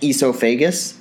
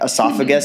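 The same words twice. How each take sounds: First: It has an unusual, non-American pronunciation. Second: It has the standard American pronunciation. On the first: "I used to say those words in those ways" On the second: "esophagus as"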